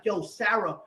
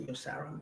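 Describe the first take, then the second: First: Raised, higher mock-angry call; heated retold outburst; retold raging. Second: Soft, subdued address; quiet retold appeal after the rage; retold calming down. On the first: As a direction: replay an angry confrontation. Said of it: "I'm, I'm, I'm raging". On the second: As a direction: replay backing off, voice dropped. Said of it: "So I stopped. I said".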